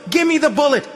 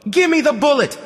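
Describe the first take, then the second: First: Loud, very high yell rising at the end; the kid insisting even harder; girl yelling it again, rising; worked-up shout. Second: Put-on loud, very high child's yell; a demanding kid shouting; little girl yelling for her bullet; worked-up shout. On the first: Acted. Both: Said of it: "started getting worked up".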